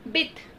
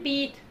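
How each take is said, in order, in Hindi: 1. स्वर छोटा और जल्दी से बोला जाता है। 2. स्वर को खींचकर लंबा बोला जाता है। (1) "उसे जल्दी से पढ़ेंगे, जैसे कि बिथ" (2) "अगर आप उसे ऐसे पढ़ देते हैं बीथ, तो वो गलत हो जाएगा"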